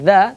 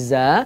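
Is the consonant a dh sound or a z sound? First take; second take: dh; z. First: The consonant is a dental dh-like sound. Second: The consonant is a buzzing z sound. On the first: The speaker calls it right. "ketika kita mengucapkan za" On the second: The speaker calls it wrong. "suaranya berubah menjadi za"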